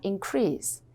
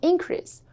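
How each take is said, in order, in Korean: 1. 강세는 두 번째 음절에 있어요. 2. 강세는 첫 번째 음절에 있어요. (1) "동사일 땐 뒤에 강세" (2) "명사일 땐 increase"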